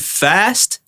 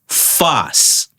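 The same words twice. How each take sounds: First: The final T sound is pronounced. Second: The final T sound is dropped. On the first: "where you would say fast" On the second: "we don't pronounce the T's"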